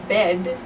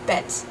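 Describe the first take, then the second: First: The word ends with a voiced D sound. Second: The word ends with a voiceless T sound. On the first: "with a voiced D at the end" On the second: "might be pronounced by a Dutch person as bet, with a T"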